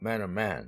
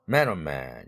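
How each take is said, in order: First: Both main words carry strong stress. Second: Only the first word carries strong stress. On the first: The speaker calls it right. "이렇게 둘 다 다 일강세로 붙여주는" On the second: The speaker calls it wrong. "이게 아니고"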